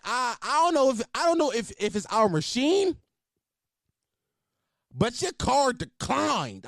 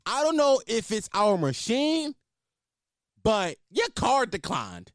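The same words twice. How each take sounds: First: Waitress impression. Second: Higher, slow, drawn-out blurt; mock waitress announcement. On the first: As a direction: parody the waitress making a show of it. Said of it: "She ain't had to say it like that". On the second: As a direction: imitate the waitress spelling it out for the whole room. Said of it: "Loud as fuck, just like that to everybody".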